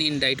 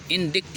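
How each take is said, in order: First: "इंडाइट" said in-dite, c silent; correct pronunciation. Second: "इंडिक्ट" with short i and sounded k; spelling pronunciation "इंडिक्ट", ending in -ikt; as spelled. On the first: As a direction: say "इंडाइट" with a long i and no k. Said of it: "लेकिन इंडाइट पढ़ते हैं". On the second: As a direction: read "इंडिक्ट" as in-dikt. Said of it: "इंडिक्ट लिखते हैं". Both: Shown as a demonstration.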